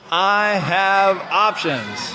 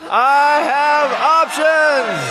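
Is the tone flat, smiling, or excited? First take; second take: flat; excited. First: It is said in a flat, plain tone. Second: It is said in a really excited tone.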